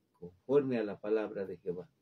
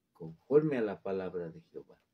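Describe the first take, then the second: Both takes have the same delivery.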